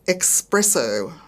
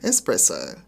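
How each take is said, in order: First: It uses an Australian variant pronunciation. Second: It uses the standard English pronunciation. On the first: The speaker calls it wrong. "Australian expressions not pronounced correctly" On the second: The speaker calls it right. "instead of"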